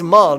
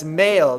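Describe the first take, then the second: First: The vowel sounds like the one in 'mall'. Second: The vowel sounds like the one in 'mail'. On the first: The speaker calls it right. "it's Maul, not male" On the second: The speaker calls it wrong. "it's Maul, not male"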